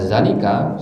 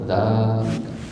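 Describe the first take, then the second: First: The vowel after z is short. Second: The vowel after z is long. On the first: The speaker calls it wrong. "Kalau bacanya zalika salah terus" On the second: The speaker calls it right. "Harus zalika"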